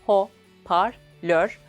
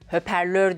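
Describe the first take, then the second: First: The first vowel is a back rounded o. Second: The first vowel is a front rounded ö. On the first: The speaker calls it right. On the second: The speaker calls it wrong.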